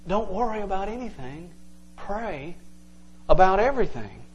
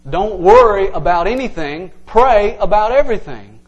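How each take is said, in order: First: Much softer, gentle, with pauses; soft reading. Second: Louder, proclaiming the verse; emphatic reading. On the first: Preacher softly rereading the verse to the congregation, hushed. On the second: Preacher proclaiming the verse to the church, emphatic. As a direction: announce the verse with force to the congregation. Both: Shown as a demonstration. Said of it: "it would say something like this".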